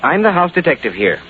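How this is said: It is said firmly, with force.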